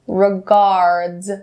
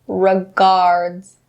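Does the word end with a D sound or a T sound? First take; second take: D sound; D sound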